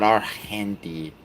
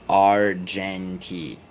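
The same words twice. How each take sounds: First: The g is said as a hard g sound. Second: The g is said as a soft j sound. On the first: The speaker calls it wrong. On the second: The speaker calls it right. "to make the J sound, you have to G E or G I"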